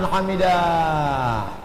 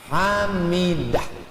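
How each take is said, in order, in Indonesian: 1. Vokal dalam kata itu dibaca panjang. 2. Vokal dalam kata itu dibaca pendek. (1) "Udah panjang" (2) "Itu hamidah pendek"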